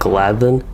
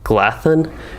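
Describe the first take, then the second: First: The th sound is voiced, as in then. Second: The th sound is voiceless, as in thin. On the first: The speaker calls it right. "more like a than or then rather than a thin type T H noise" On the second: The speaker calls it wrong. "like a T H sound for the D H"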